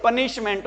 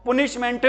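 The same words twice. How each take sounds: First: पनिशमेंट said as "punishment", with a short neutral uh in the first syllable; correct pronunciation. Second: पनिशमेंट said as "poonishment", with an oo in the first syllable; wrong pronunciation. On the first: Teacher giving the class the right pronunciation, puh-nishment. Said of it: "क्या होती है". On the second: Teacher showing the class the mistaken pronunciation, poonishment. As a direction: pronounce पनिशमेंट the common wrong way, first vowel like "put". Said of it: "नहीं होती". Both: Shown as a demonstration.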